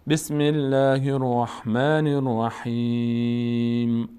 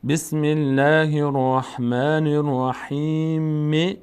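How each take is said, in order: First: Slow, drawn-out الرحیم closed on a silent m; slow chant, الرحیم ending without a final vowel; stopping recitation. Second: Slow, drawn-out الرحیم with a short final i to link onward; slow chant, الرحیم left open on -mi; continuing recitation. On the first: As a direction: hold the long ī of الرحیم and stop on m. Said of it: "اگه ادامه ندیم". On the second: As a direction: recite الرحیم with its last vowel sounded, unfinished. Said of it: "اگه ادامه بدیم". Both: Shown as a demonstration.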